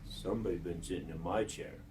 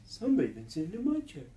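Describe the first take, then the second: First: Lightly voiced low father bear; low, restrained bear grumble; Papa Bear. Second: Higher, quicker mother bear voice; lightly raised, fast female bear; Mama Bear. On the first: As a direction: drop the voice low for the big bear. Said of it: "And Papa Bear says". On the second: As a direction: lift the voice and hurry it like a mother bear. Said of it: "Mama Bear says". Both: A narrator's reading.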